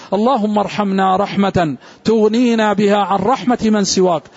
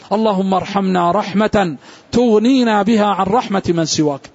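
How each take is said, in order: Both takes have the same delivery.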